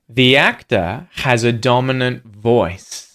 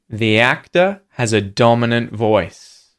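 The two takes are said the same way.

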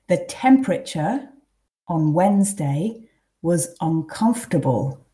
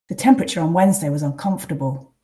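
First: The sentence is read slowly. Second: The sentence is read at a natural pace. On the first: "I'll read them first quite slowly" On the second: "then read twice at a more natural pace"

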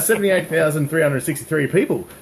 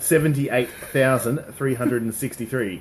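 First: The number is said at normal speed. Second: The number is said slowly and carefully.

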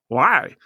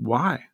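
First: It sounds accusatory. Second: It sounds genuinely curious.

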